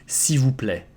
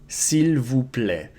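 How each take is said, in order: First: The first word is shortened to 'see', said fast. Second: The first word is said fully as 'seel'. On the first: "most of the people will pronounce it as a si" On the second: "the most standard way"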